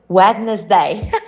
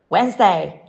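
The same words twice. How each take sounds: First: It is said in three syllables, with D. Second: It is said in two syllables, no D. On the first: The speaker calls it wrong. "Common mispronunciation" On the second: The speaker calls it right. "Right pronunciation, the first D is silent and the middle syllable is omitted altogether"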